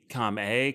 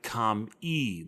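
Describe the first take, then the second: First: The name ends with an 'ay' vowel. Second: The name ends with an 'ee' vowel. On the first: "instead of E" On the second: "I always pronounced it com-e, like K A M I"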